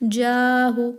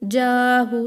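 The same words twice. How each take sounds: The two takes are said the same way.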